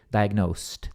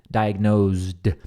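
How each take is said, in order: First: "diagnosed" said with an S sound and a final T, like diagnost; American S and T ending. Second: "diagnosed" said with a Z sound and a voiced D at the end; British Z and D ending. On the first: Teacher contrasts the American pronunciation ending in T. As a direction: end "diagnosed" on a crisp T. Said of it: "aí o som final é de T". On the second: Teacher demos the British pronunciation with Z and D. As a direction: make it "diagnozd", buzzing Z then a D. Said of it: "na pronúncia britânica dessa palavra aqui". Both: Shown as a demonstration.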